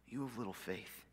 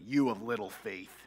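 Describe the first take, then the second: First: It sounds gentle and loving. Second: It sounds angry and scolding.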